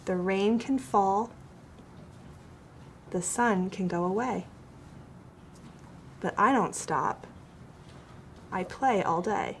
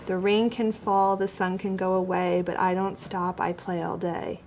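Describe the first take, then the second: First: Poem read line by line, pausing at each break; pause at line breaks. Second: No stops at line ends; run-on reading. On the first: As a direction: stop and breathe at every line break. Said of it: "So it sounds like this". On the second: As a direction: read straight through with no pauses. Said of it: "I don't read it like this". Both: Shown as a demonstration.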